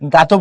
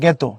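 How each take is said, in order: First: The first vowel is an open 'a' sound. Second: The first vowel sounds like an 'e'. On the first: The speaker calls it wrong. "গাতো পড়বা না" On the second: The speaker calls it right. "পড়বা জ্ঞেত"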